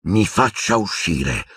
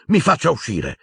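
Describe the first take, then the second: First: Slow, icy, controlled; cold and calm. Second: Higher, shaking command; trembling demand. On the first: Boy repeating his demand coldly to the headmaster. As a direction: flatten all the rage out. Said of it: "con voce fredda e pacata". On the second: Boy demanding to leave, higher and tense. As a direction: demand it, barely holding on. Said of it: "Tremava da capo a piedi". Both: A narrator's reading.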